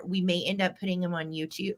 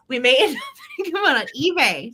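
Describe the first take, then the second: First: Said in the usual way. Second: Laughing correction. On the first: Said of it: "or not YouTube". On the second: Real, not acted.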